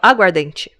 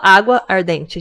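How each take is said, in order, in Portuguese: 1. As duas palavras são fundidas, e uma vogal é omitida. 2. As duas palavras são ditas separadamente, com as duas vogais mantidas. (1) "a gente fala aguardente" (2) "a gente não fala água ardente"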